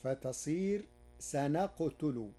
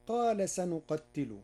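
First: سنقتل said sanaqtulu, no doubling; light, undoubled ta. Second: Said in the usual way. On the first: Shown as a demonstration. Teacher showing Warsh: سنقتل without doubling. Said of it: "بتخفيفها". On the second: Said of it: "قرأ ورش كلمة سنقتل".

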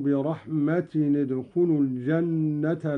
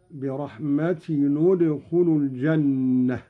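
First: Said in the usual way. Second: برحمة ادخلوا linked as bi-rahmatinu-dkhulu; damma on the tanwin. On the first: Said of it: "قرأ قالون بضم أولى الساكنين". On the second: Shown as a demonstration. Sheikh showing Qalun's linking, a u on the tanwin of برحمة. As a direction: join برحمة to ادخلوا with a short u after the n. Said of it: "قرأ قالون بضم أولى الساكنين، وهو تنوين التاء".

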